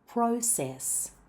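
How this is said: The first vowel glides like a British diphthong. "in the U K and Australia, we use the diphthong or double vowel O"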